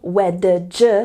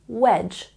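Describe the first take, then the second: First: An extra D sound is pronounced before the ending. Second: No separate D sound is pronounced before the ending. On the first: The speaker calls it wrong. "We're not saying wedge, no, no, no" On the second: The speaker calls it right. "we're saying wedge. Just imagine the D isn't there"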